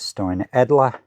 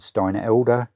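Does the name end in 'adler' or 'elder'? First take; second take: adler; elder. First: The name ends with an 'adler' sound. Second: The name ends with an 'elder' sound. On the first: The speaker calls it right. "but it says Steinadler" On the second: The speaker calls it wrong. "I pronounced these Steinadler ones wrong. I think I said Steinelder"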